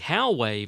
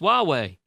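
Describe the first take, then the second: First: The first syllable sounds like 'how'. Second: The first syllable sounds like 'wah'. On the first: The speaker calls it wrong. "I have been using the Howway variation, which we now know to be bad and wrong" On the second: The speaker calls it right. "The official pronunciation is W A H W A Y"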